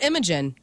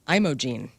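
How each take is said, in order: First: The last syllable sounds like 'jen'. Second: The last syllable sounds like 'jeen'. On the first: The speaker calls it wrong. "And not Imogen" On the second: The speaker calls it right.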